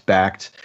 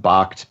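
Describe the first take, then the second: First: Said in the usual way. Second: "Bakkt" said as "bockt", with an ah vowel; alternative pronunciation. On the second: Shown as a demonstration. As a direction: say "Bakkt" to rhyme with "locked". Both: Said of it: "some people pronounce it".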